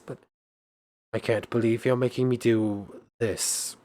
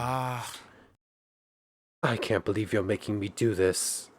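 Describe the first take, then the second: First: There is a pause between "do" and "this". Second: The words run on with no pause before "this". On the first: The speaker calls it right. "there was supposed to be a pause between do and this" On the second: The speaker calls it wrong. "I just immediately filled in this"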